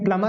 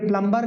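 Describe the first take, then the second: First: The b sound is left silent. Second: The b sound is pronounced clearly. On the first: The speaker calls it right. "प्लमर होता है" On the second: The speaker calls it wrong. "प्लम्बर गलत है"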